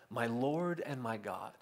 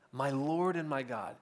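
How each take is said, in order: First: Quiet, slow and hushed; a hushed, reverent "My Lord and my God"; reverent quote. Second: Said in the usual way. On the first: Retold or imitated. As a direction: breathe it out like a confession of awe. Thomas's awed confession, quoted.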